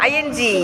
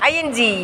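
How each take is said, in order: No difference in how they are said.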